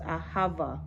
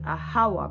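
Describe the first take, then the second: First: The middle consonant is a v sound. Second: The middle consonant is a w sound.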